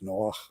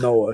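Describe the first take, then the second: First: The name ends with a throaty ch sound. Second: The name ends with a soft breathy h. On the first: The speaker calls it right. "it's got that ket" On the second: The speaker calls it wrong. "not the hay"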